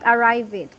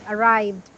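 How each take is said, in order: First: The ending is said as a separate extra syllable. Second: The ending adds only a sound, no extra syllable. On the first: The speaker calls it wrong. "this is not arrive it" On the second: The speaker calls it right. "One syllable"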